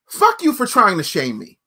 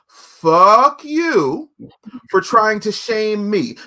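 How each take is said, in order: First: It is spoken at a normal pace. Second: It is spoken slowly and deliberately.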